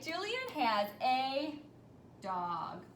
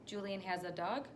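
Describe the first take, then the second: First: The voice falls at the end, like a statement. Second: The voice rises at the end, like a question. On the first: It simply states a fact. "I wasn't asking a question" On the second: It asks the listener for an answer. "did you have to answer me back?"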